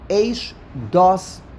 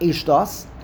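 First: It is said as two separate words. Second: It is run together as one word. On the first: The speaker calls it right. "It's two words" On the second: The speaker calls it wrong. "It's not Eish, Dos"

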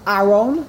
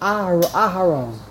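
First: The h sound is left out entirely. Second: The h has a very short vowel after it. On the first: The speaker calls it wrong. "If you swallow the hay, you just say aron" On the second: The speaker calls it right. "You have to say the hay very quickly"

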